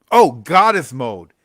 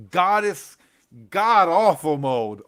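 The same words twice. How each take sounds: First: Drawn-out, louder groan at the title; slow: "Oh, Goddess Mode" as if it hurts to say; loud groan of recognition. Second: Slow, loud punch on "god-awful"; mocking pun. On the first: Remembering a book he hated, slow loud groan. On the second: Mocking the title for viewers, loud slow stress on "god-awful". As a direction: lean hard on "god-awful" to twist the title. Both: Real, not acted.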